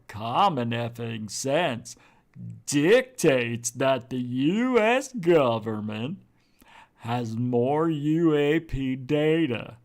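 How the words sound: It is said in an imitated, put-on voice.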